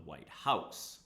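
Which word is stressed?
House. The second word is stressed and higher in pitch. "if it's a descriptive phrase, we stress the second word stronger"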